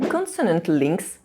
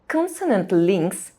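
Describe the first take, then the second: Both takes have the same delivery.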